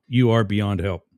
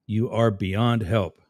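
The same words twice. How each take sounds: First: Said in the usual way. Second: Slow, each word spaced out; slow and deliberate. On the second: Shown as a demonstration. Host repeating it to a chat troll, slow and deliberate. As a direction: spell it out slowly for a slow listener.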